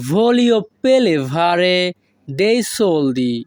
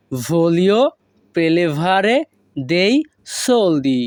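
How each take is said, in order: First: Said in the usual way. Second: One word at a time, as for learners. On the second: Shown as a demonstration. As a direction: separate every word with a pause. Teacher repeats phrase word by word. (একটি একটি শব্দ করে)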